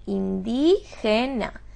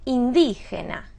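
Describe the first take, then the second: First: "indígena" slowly broken up, DÍ stressed; syllable by syllable. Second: Said in the usual way. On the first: Shown as a demonstration. Teacher quizzing on word type, "indígena" syllable by syllable. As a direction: sound out "indígena" in slow pieces. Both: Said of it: "¿Qué palabra es?".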